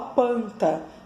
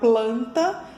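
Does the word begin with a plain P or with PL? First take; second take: plain P; PL. First: The word begins with P without an L. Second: The word begins with a P followed by L. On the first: The speaker calls it wrong. "ela fala panta" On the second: The speaker calls it right. "ao invés de falar planta"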